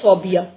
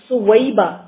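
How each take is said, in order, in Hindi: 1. नाम की शुरुआत 'sau' अक्षर से होती है। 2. नाम की शुरुआत 'su-wai' अक्षरों से होती है। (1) "सौबिया नहीं है ये नाम"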